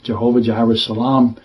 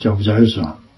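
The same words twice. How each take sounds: First: The phrase is said at a normal pace. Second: The phrase is said very fast, run together.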